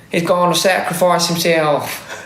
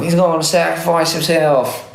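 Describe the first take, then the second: First: Slow, drawn-out meme voice; quoting the meme slowly and solemnly; meme quote. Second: Solemn quoted meme line, a bit higher; meme quote. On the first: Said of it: "do you know that meme?". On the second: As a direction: repeat the meme line mock-dramatically. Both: Retold or imitated.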